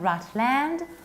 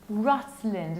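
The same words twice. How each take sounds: First: The final syllable is full, like 'land'. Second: The final syllable is reduced. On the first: The speaker calls it wrong. "not Rutland" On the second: The speaker calls it right. "we have to reduce it. That's why we say Rutland"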